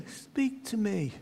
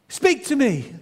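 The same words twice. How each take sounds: First: Soft, slow, distant repeat; valley echo repeating the boy. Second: A higher, raised demand into the valley; boy demands the voice speak; calling out. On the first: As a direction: let it drift back from far off. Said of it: "you could hear an echo". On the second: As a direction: insist the stranger answer. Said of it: "he said". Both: Retold or imitated.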